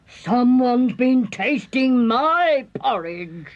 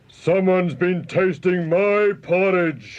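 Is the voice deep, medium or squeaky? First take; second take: medium; deep. First: It is growled in a medium-pitched voice. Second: It is roared in a deep gruff voice.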